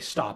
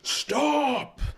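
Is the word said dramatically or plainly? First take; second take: plainly; dramatically. First: The word is said flatly, without extra inflection. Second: The word is said with exaggerated, heavy inflection. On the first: This is a natural, understated delivery. The speaker calls it right. "I can't just say stop" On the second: This is an overplayed dubbing-style delivery. The speaker calls it wrong. "I have to be like stop"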